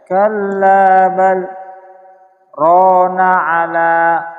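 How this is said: There is a brief pause after bal. The speaker calls it right. "ada jeda"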